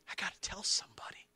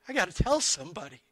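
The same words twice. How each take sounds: First: It is said softly. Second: It is said loudly.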